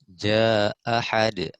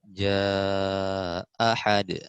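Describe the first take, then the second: First: The long vowel is held only briefly. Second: The long vowel is held at medium length. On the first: "qasr dulu" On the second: "Yang kedua baru dia ta tawasud"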